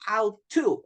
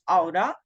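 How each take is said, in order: First: Both words are said fully with a clear t. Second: The words blend into a reduced 'oughta'. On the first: This is the less common careful way. "than auto" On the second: This is the common fluent way natives say it. "it's more common that we use aura"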